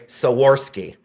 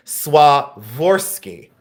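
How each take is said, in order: First: Swarovski said "so-WOR-ski", an extra "o" sound before the w; Ohio pronunciation. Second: Swarovski said "swah-ROV-ski", crisp SW start, slow and careful; correct pronunciation. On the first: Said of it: "I'm from a cornfield in Ohio, and I say Swarovski". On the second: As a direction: Swarovski pronounced the proper way, the w right after the s. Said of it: "someone had told me I say Swarovski wrong". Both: Retold or imitated.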